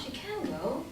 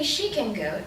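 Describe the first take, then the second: First: The word can carries the main stress. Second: The word she carries the main stress. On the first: She is indeed able to go. "She has a car, she can go, I can't" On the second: She, not someone else, is able to go. "it's because we mean, well, she can go, I can't, I'm busy"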